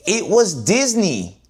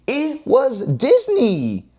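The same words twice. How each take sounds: First: Said in the usual way. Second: High, slow, stretched-out DISNEY; mock disbelief. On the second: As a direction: drag out Disney in pretend shock.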